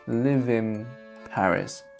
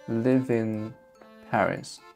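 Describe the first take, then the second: The two takes are said the same way.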